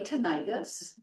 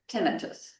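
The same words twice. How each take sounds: First: The ending sounds like the suffix 'itis'. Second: The ending does not sound like 'itis'. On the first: The speaker calls it wrong. "A lot of people say tinnitus" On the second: The speaker calls it right. "It is tinnitus"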